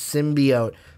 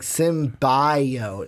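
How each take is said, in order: First: The word is pronounced in the standard way. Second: The word is pronounced in an odd way. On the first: The speaker calls it right. "no, it's symbiote" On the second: The speaker calls it wrong. "it just sounds so weird. Like symbiote"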